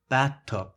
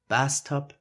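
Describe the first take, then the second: First: The th is pronounced as a t. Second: The th is pronounced as an s. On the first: "for the Mexican, it's more likely to replace the TH sound with a T" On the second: "as a German beginner would pronounce them"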